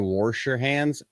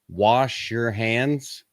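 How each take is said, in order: First: It is said with an older regional pronunciation. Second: It is said with a standard pronunciation. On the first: "My grandpa always used to say" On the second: "To make sure that I'm saying it the correct way"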